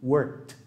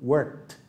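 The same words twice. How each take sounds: Both takes have the same delivery.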